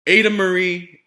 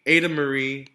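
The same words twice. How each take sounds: First: Loud, higher full-name scolding; scolding yell. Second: A calmer, firm repeat of the name; softer scolding. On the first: Exasperated parents scolding their daughter, a loud angry yell. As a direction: call the child out by her full name. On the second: Parents repeating their daughter's name, firm and less loud. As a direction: warn her, a notch down. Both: Acted. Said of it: "her parents yelled".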